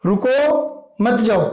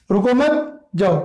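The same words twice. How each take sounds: First: "रुको", a clear pause, then "मत जाओ" together; slow, breaking after "रुको" and joining "मत" to "जाओ". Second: "रुको मत" run together, pause, then "जाओ"; pause after मत. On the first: Teacher showing that going is forbidden, pause after "रुको". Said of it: "जाने की मनाही है". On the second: Teacher showing an order to go, pause after "मत". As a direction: join "मत" to "रुको" and break before "जाओ". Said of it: "यानी इसमें जाने का निर्देश दिया जा रहा है". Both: Shown as a demonstration.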